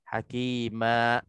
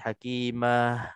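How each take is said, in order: First: The word ends with a sharp glottal stop. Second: The word ends with an extra breathy h. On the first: "tahan nafas maka dia akan jadi seolah-olah ada huruf hamzah" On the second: "terlebih nafas jadi hakimah, ada nafas seolah-olah ada haraf huruf ha"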